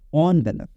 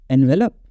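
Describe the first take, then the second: First: The first syllable starts with an 'on' sound. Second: The first syllable starts with an 'en' sound. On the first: The speaker calls it right. "It is ऑनवेलप" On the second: The speaker calls it wrong. "एनवेलप नहीं"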